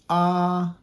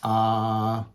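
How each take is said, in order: First: The long vowel is said at a higher pitch. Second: The long vowel is said at a lower pitch. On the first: "your tone in your voice goes up a little bit higher" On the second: "the regular A's is ah"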